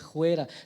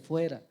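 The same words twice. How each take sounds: First: The word does not start with an F sound. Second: The word starts with a clear F sound. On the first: The speaker calls it wrong. "no se dice fuera" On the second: The speaker calls it right. "se dice fuera, con F"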